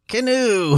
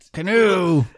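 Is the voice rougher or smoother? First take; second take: smoother; rougher. First: The put-on voice sounds smoother and less gravelly. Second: The put-on voice sounds quite rough and gravelly. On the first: The speaker calls it right. "There you go" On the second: The speaker calls it wrong. "little less rough"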